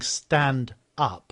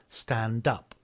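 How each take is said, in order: First: The two words are said separately. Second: The final consonant links onto the next word. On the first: The speaker calls it wrong. "instead of saying" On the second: The speaker calls it right. "we say"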